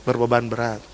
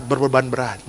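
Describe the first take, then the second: First: Softer, laughing repeat of "Berbeban berat". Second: Said in the usual way. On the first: Real, not acted. Pastor laughing at his own joke about the burden.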